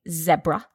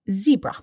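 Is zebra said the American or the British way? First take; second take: British; American. First: It is said the common British way. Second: It is said the common American way. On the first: "most people in Britain say zebra" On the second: "most people in the US say zebra"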